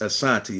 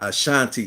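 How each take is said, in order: First: The middle consonant is a plain s sound. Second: The middle consonant is an sh sound. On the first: The speaker calls it right. "that's the proper way" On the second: The speaker calls it wrong. "it's not Ashanti"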